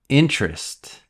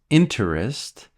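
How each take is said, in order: First: The middle sound is dropped. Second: The middle sound is fully pronounced. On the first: The speaker calls it right. "We say interest. We cut the middle sound again" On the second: The speaker calls it wrong. "Almost no one says interest"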